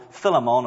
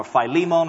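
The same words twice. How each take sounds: First: Philemon said as FILL-uh-mon; alternative pronunciation. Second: Philemon said as fy-LEE-mon; alternative pronunciation. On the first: Preacher offering one way to say the name, Philemon as FILL-uh-mon. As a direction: say Philemon with a short first vowel, FILL-uh-mon. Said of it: "it's one of those pronunciations". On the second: Preacher offering the other way to say the name, Philemon as fy-LEE-mon. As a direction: say Philemon with a long i and stressed LEE. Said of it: "don't know how to pronounce it". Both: Shown as a demonstration.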